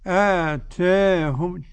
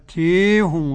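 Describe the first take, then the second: First: The long a leans slightly toward ee. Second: The long a leans strongly toward ee. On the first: "تقليل ... تنحوها بالألف نحو الياء قليلا" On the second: "الإمالة الكبرى"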